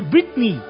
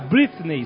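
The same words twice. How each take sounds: First: It is said with an English pronunciation. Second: It is said with a Brazilian Portuguese pronunciation. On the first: The speaker calls it right. "na verdade é Britney" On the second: The speaker calls it wrong. "aqui no Brasil se fala muito"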